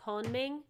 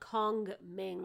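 First: The first g sound is left out. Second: The first g sound is clearly pronounced. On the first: "they don't pronounce the first G. It's like Konming" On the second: "It's not like Kongming"

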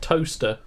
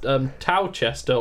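First: The middle syllable is dropped, sounding like toaster. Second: Every syllable of the name is pronounced in full.

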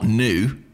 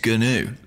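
First: The word starts with a plain n sound. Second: The word starts with a g before n. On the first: The speaker calls it wrong. "that's not new" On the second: The speaker calls it right. "it's gnu"

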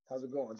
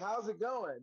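First: It is rushed together like one word. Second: It is said slower with separate words. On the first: The speaker does not really want to know. "If I don't care, I just, you know, how's it going? Just like that, keep it moving. How's it going real fast? That means it's one word" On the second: The speaker really wants to know. "That means I want to know"

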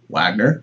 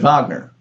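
First: The name is said the American way. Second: The name is said the German way.

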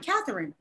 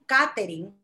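First: The name is pronounced the English way. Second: The name is pronounced the Spanish way. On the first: This is how the speaker introduces herself to most people. "when I introduce myself, I say" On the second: This is how her family and Spanish speakers say her name.

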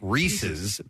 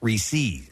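First: The word is pronounced as a plain possessive. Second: The word is pronounced unlike a plain possessive. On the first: The speaker calls it right. "the proper pronunciation would be Reese's, as in possessive" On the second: The speaker calls it wrong. "not Reese's"

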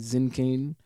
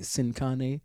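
First: The name is said with a German accent. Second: The name is said with a Mexican Spanish accent. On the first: "when we go to Germany, they'll say" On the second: "when we go to, for instance, Mexico, people say"

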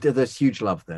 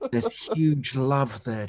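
First: It is said plainly, with little enthusiasm. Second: It is said in a hushed, awestruck manner. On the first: "say it with a bit more enthusiasm" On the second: "Can you give it a bit more awe?"

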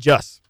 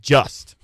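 First: The final T is cut off, Midwest style. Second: The final T is clearly pronounced.

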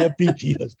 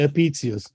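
First: The middle consonant is a hard k sound. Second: The middle consonant is a ts sound. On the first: This is the classical Latin pronunciation. "if I go to Cicero, I say" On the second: This is the German pronunciation. "In Berlin, though, I say"

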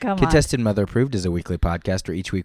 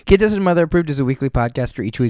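First: The words are spoken at a slower pace. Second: The words are spoken at a fast pace.

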